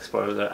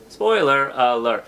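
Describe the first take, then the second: First: "Spoiler alert" squeezed to three syllables. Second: "Spoiler alert" said in four full syllables, slow. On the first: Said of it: "I make it three syllables". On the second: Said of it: "it's four syllables". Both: Shown as a demonstration.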